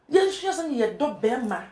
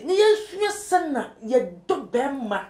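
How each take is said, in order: First: Said in the usual way. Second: Slow, each word leaned on for emphasis; slow deliberate emphasis on yɛsua; slow emphatic stress. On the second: Shown as a demonstration. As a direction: drive the point home slowly.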